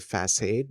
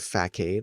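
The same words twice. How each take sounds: First: The middle consonant is a soft s sound. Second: The middle consonant is a hard k sound. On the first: The speaker calls it right. "it's the sound of s instead of k" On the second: The speaker calls it wrong. "a hard k"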